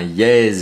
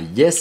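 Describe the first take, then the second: First: The name is said with a z sound. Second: The name is said with an s sound. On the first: The speaker calls it right. "on dit bien Yeezy" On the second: The speaker calls it wrong. "on dit pas Yes"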